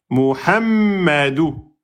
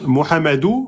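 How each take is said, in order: First: The middle consonant is held and doubled. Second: The middle consonant is short, not held. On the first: The speaker calls it right. "on bloque d'abord en soukoun avant de sortir la voyelle" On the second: The speaker calls it wrong. "vous avez oublié la Shedda"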